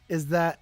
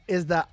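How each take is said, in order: Both takes have the same delivery.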